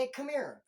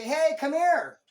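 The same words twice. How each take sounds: First: Said in the usual way. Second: Loud, high, demanding summons; calling someone over like a dog; mock bossy call. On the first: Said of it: "He says". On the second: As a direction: bark it like a yard boss. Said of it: "You're not gonna say".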